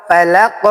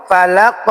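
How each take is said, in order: Both takes have the same delivery.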